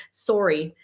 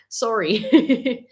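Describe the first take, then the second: First: "sorry" with a rounded "sore" vowel, falling; Canadian-style sorry. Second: "sorry" with an open "sar" vowel, rising; second sorry take. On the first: Saying it on a viewer's request, "sorry" with rounded Canadian vowel. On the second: Repeating it on a viewer's request, "sorry" rising with open vowel. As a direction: say "sorry" higher, as "SAR-ee", lifting at the end. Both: Shown as a demonstration. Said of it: "just say, "Eh," and so, and sorry".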